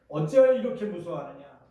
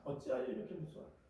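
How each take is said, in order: First: Loud stern rebuke; Jesus rebuking, loud and stern. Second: Much softer, fast, gentle reproach; hushed, disappointed rebuke. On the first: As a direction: scold the frightened disciples. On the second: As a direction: ask it quietly, almost to yourself. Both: Retold or imitated. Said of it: "이렇게 책망하셨어요".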